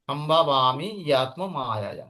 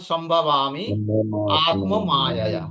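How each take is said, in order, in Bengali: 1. শব্দগুলো একসাথে চলে, মাঝে y ধ্বনি যুক্ত হয়। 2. প্রতিটি শব্দ আলাদা করে উচ্চারণ করা হয়, জুড়ে যায় না। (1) "যখন আমরা একসাথে পড়বো ... উচ্চারণটা এইভাবে চলে আসবে" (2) "ভেঙে ভেঙে যখন পড়ছি"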